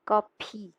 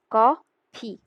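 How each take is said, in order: First: कॉफी with a plain unaspirated p, kopi; soft p sound. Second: कॉफी with a breathy ph, ko-phi; aspirated ph. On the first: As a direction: say कॉफी as ko-pi, no puff of air. (कॉफी में प हल्का, बिना हवा के) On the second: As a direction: push air on the ph of कॉफी. (कॉफी में फ पूरी हवा के साथ) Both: Shown as a demonstration. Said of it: "फ प्लस ई".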